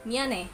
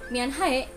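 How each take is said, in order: First: The h sound in the middle is left silent. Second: The h sound in the middle is clearly pronounced. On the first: The speaker calls it right. "Padahal kan bunyinya miane gitu" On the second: The speaker calls it wrong. "kalian yang nggak bisa cara bacanya, itu akan membacanya seperti mianhae. Ya, no!"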